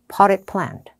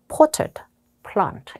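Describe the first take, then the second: First: It is said with an American accent. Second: It is said with a British accent. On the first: "미국 언니가 읽으면 많이 느끼해져요" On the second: "영국 호주 쪽은 약간 potted plant 이렇게 돼요"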